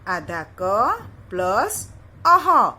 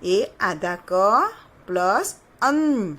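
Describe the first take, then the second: First: "आधा क plus अह" said slowly, ending on a breathy falling अह; teacher slowly joining क and अह; sounding out. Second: "आधा क plus अन" said slowly, ending on a long falling अन; teacher slowly joining क and अन; sounding out. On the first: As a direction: spell it out slowly, landing on अह. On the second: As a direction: spell it out slowly, landing on अन. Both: Shown as a demonstration. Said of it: "तो यहाँ देखिए".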